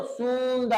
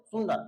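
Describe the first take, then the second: First: "सुंदर" का उ बहुत लंबा खींचकर; "सुंदर" को "सूंऽऽदर" जैसा बोलें; गलत खिंचा उच्चारण. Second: "सुंदर" का उ छोटा रखें; "सुंदर" बिना खींचे, छोटे उ से. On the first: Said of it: "ऐसा नहीं बोलते". ("सुंदर" में लंबे ऊ का गलत नमूना) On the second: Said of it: "short sound सुंदर". ("सुंदर" में ह्रस्व उ का सही उच्चारण) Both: Shown as a demonstration.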